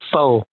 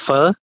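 First: The word is said like the English word 'for'. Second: The word is said with a Vietnamese pronunciation. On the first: This is how non-Vietnamese friends say it. The speaker calls it wrong. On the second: This is how Vietnamese speakers say it. The speaker calls it right. "in Vietnamese, we call it pho"

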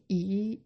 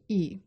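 First: The pitch rises from mid to high. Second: The pitch falls sharply from high.

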